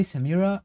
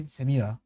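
First: Samira in the English way, stress on "mi" with an English r; English pronunciation. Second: Samira the Arabic way, short vowels and a tapped r; Arabic pronunciation. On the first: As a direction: say "Samira" like an English speaker, sa-MEE-ruh. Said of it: "Like, in English, you would say". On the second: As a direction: say "Samira" as in Arabic, sa-MEE-ra with a flicked r. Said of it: "In Arabic, you say Samira". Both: Shown as a demonstration.

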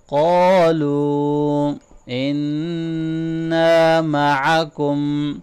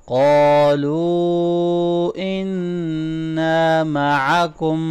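First: قَالُوا إِنَّا with a long madd and a nasal doubled noon; proper madd and ghunna. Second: قَالُوا إِنَّا with the madd held and the noon nasalized; proper madd and ghunna. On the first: Teacher demonstrating madd and ghunna, slow. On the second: Teacher repeating after explaining madd and ghunna. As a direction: hold قَالُوا, hum إِنَّا. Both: Shown as a demonstration. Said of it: "proper مد کریں، proper غنہ کریں".

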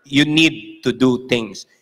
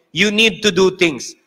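First: "you need to do things" said slowly, lower and deliberate; slow, lower repeat. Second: Said in the usual way. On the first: Shown as a demonstration. Preacher revising his line for the crowd, slow and deliberate. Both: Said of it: "Let's revise the word".

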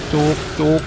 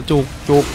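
The two takes are said the same way.

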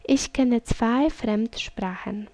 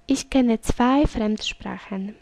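No difference in how they are said.

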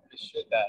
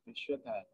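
First: Said in the usual way. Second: Vishuddha with a small break between the d and the h; Sanskrit pronunciation. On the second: Shown as a demonstration. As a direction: say Vishuddha as vi-shud-ha, pausing between the d and the h. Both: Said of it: "There's a little separation between the D and the H".

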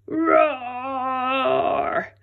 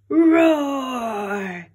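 First: A six-year-old's loud, high pretend roar; little boy's roar. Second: Big, loud, high dinosaur roar; T-Rex roar. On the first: Max showing the T-Rex how loud he can roar, small boy's roar. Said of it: "Here's how loud I can roar". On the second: Acted. T-Rex writing back to scare Max, loud monster roar. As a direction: roar it out like a terrifying king of the dinosaurs.

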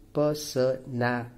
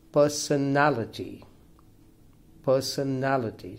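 First: "personality" broken up as per-so-na-li-ty; syllable by syllable. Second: "personality" said whole, stressed on NAL; third-syllable stress. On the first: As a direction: count out "personality" in separate, even syllables. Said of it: "this is a five-syllable word". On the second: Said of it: "the stress falls". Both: Shown as a demonstration.

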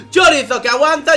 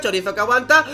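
First: Loud, high excited call; excited shout. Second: Said in the usual way. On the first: Real, not acted. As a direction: shout the name out. Caster shouts the same play.

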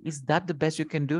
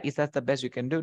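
First: Quick, dismissive question; mild sneer. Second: Said in the usual way. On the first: Shown as a demonstration. Teacher demonstrating how he sneered, quick mild sneer. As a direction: toss it off unkindly, fast. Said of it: "He sneered". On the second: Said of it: "No, he said".

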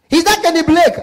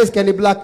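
First: High, loud caller saying "Blake" for "Black"; mispronounced name. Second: Said in the usual way. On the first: Acted. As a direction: turn "Black" into "Blake" with a long A. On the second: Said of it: "The same thing".

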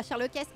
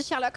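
First: "Sherlockesse", with an extra "-esse" sounded at the end; "Sherlockesse", final s voiced as a hiss after an added è; wrongly added ending. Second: Said in the usual way. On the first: Shown as a demonstration. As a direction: say "Sherlockesse" to rhyme with Héraclès. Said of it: "on dit pas Sherlockesse". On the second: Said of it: "On dit Sherlock, on dit pas".

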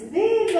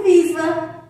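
First: "viva" as a birthday cheer, pitched high then falling; viva de parabéns. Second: Said in the usual way. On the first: Pretend. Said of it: "Quando cantamos parabéns". ("viva" cantado como nos parabéns, agudo e caindo) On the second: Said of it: "Formou a palavrinha viva".

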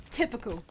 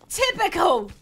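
First: Said in the usual way. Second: "Typical" higher and more forceful; indignant punch on "Typical"; exasperated repeat. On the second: Real, not acted. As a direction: hit "Typical" hard, pitched up. Repeats the grumble emphatically.

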